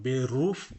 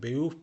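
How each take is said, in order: First: The middle r sound is clearly pronounced. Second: The middle r sound is dropped. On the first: The speaker calls it wrong. "আমি কিন্তু এটার উচ্চারণ বেরুফ পড়ি নাই" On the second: The speaker calls it right. "জার্মানিতে আর এর উচ্চারণ প্রায় হয় না"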